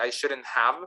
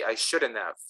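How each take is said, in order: First: The h in have is fully pronounced. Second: The h in have is dropped. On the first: The speaker calls it wrong. "people don't don't normally say I shouldn't have" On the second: The speaker calls it right. "There's always a reduction of the letter H"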